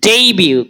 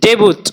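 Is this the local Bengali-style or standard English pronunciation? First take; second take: standard; local. First: It is said in the standard English way. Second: It is said in the common local Bengali way. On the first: The speaker calls it right. "এই শব্দটাকে কিভাবে উচ্চারণ করব?" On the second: The speaker calls it wrong. "আমরা বলি ডেবুট"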